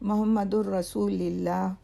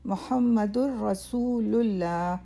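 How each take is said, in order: First: It begins with 'mo' and has 'lillah'. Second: It begins with 'mu' and has 'lullah'. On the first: The speaker calls it wrong. "दोनों तलफ़ुज़ गलत हैं" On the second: The speaker calls it right. "सही तलफ़ुज़ ये है"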